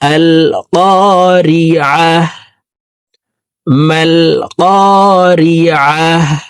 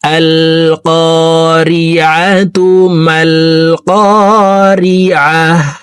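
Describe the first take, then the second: First: A pause follows the first phrase, ending in -ah. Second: Both phrases run together, first ending in -atu. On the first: The reciter stops at the end of the verse. "যদি থেমে পড়ি তাহলে এইভাবে পড়বো" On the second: The two verses are recited joined. "মিলিয়ে শিখবো"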